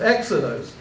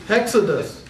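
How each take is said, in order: First: The word begins with a bare vowel sound. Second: The word begins with an h sound. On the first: "you have the smooth breathing, so it's exodose" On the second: "If you if it was a rough breathing, how would you pronounce that?"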